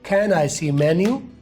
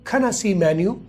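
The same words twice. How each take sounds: First: The word 'I' sounds like a full 'eye'. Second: The word 'I' is a very short 'uh'. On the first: The speaker calls it wrong. "उस तरह से भी कर सकते हैं" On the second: The speaker calls it right. "ये सबसे बेहतर है"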